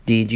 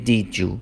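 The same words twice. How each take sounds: First: Said in the usual way. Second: "did you" blended into "dih-joo"; "did you" with a j in the middle; linked sounds. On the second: Shown as a demonstration.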